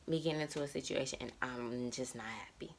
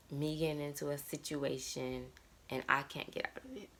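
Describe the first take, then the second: First: Soft unvoiced whisper, the fear said under her breath; hushed anxious whisper. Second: Said in the usual way. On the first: Real, not acted. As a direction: breathe the words out like a confession. Repeats the line as a whisper.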